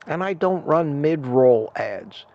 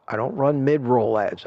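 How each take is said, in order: First: Slowly stressing don't; slow, emphatic. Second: Said in the usual way. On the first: Shown as a demonstration. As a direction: spell it out slowly.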